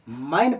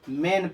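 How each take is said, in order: First: The vowel sounds like 'eye'. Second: The vowel sounds like 'ay'. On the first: The speaker calls it wrong. "माइन पढ़ेंगे तो गलत होगा" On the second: The speaker calls it right. "मैन पढ़ेंगे"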